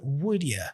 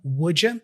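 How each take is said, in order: First: A very light D, then a short ya. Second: The D and Y merge into a J sound. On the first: "It's a light D, very light D, and he doesn't really go full ja" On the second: "the D and the Y there I would say judja"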